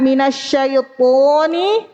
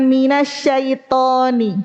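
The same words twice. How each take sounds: First: Slow MINASYAITONI with an emphatic, full "tho"; correct heavy to. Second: Slow MINASYAITONI with a plain t before o; wrong light ta. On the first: Teacher giving the right reading, heavy to. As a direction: back of tongue raised on "to" in MINASYAITONI. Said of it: "Jadi baca minasyaitoni". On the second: Teacher giving the wrong reading, light ta with o. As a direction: relax the back tongue on "to" in MINASYAITONI. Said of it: "bukan minasyaitoni". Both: Shown as a demonstration.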